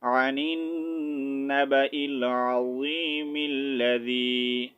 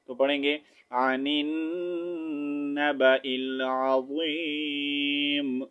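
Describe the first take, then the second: First: العظیم joined to الذی with kasra, said as ملذی, slow recitation; reading through without stopping. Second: Slow recitation ending on العظیم with a silent meem; stopping at verse end. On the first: Teacher shows students the reading without a stop, joined slow recitation. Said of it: "اور اگر وقف نہیں کریں گے تو پڑھیں گے". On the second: Teacher shows students the stop at the verse end, slow recitation with a pause. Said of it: "آیت کمپلیٹ ہو رہی ہے". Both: Shown as a demonstration.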